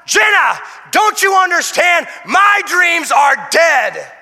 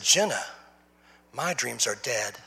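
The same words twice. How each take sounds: First: High, loud anguished yell; desperate yell. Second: Low, soft, slow and defeated; resigned quiet sadness; mild despair. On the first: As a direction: shout it slowly. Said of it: "I was yelling out". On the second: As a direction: let the words sink, slowly. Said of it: "And I said". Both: Retold or imitated.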